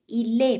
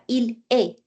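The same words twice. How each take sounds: First: The l joins the next word's syllable. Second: The l is separated from the next word. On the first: The speaker calls it right. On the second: The speaker calls it wrong.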